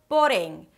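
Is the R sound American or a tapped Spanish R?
Spanish. The R is a short tapped Spanish R. "The American R turns into a short Spanish R"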